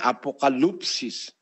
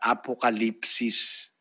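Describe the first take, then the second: First: The vowel before the final syllable sounds like u. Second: The vowel before the final syllable sounds like i. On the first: "kung babasahin mo, ang naglagay na paraan ng pagbasa, nakalagay apokalupsis" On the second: "sa tamang pronunciation sa Grego, ang ginamit kasi yung yung U, no? Katumbas yun ng I sa atin eh"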